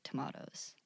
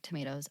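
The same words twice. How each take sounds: First: Tomatoes with an AH, tuh-MAH-toes; British pronunciation. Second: Tomatoes with an AY, tuh-MAY-toes; American pronunciation. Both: Shown as a demonstration. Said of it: "it is the American British".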